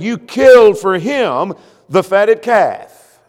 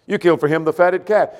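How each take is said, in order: First: Slow, louder, bitter complaint; mock resentful whine, slow and loud; envious resentful quote. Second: Said in the usual way. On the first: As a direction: drag it out like a jealous brother. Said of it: "because he said". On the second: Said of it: "You've done something for him".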